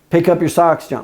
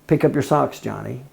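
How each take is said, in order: First: It is said in a high, raised voice. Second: It is said in a calm, normal voice.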